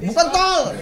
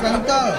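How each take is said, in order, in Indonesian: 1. Ini diucapkan dengan logat Batak yang kuat. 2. Ini diucapkan dengan logat sehari-hari yang biasa.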